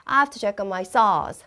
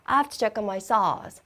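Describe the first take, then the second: No difference in how they are said.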